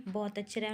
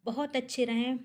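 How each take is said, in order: First: "बहुत अच्छे रहें" said again much softer, like a hushed prayer; quiet heartfelt wish repeated; softer repeated blessing. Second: Said in the usual way. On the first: Real, not acted. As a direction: let the second "बहुत अच्छे रहें" fall away to a soft heartfelt murmur.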